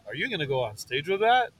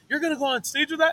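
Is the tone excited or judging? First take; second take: judging; excited. First: It is said in a judging tone. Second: It is said in an excited tone.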